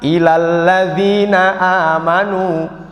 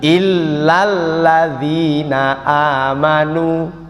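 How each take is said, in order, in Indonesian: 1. Huruf l pada kata pertama dibaca pendek. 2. Huruf l pada kata pertama dibaca rangkap. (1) "Ilal ladzina amanu artinya kepada" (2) "Yang benar bagaimana Pak Ustaz?"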